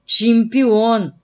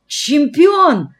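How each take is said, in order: First: Raised but restrained exclamation, falling away; echoing repeat. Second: High, loud, awestruck cry; rapturous exclamation. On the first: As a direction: repeat it like an echo of someone's delight. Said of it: "как эхо повторил я". (как эхо, сдержанно восклицая) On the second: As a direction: exclaim it with soaring adoration. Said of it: "восторженно выдохнул Фома". (восторженно, высоко и громко) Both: A narrator's reading.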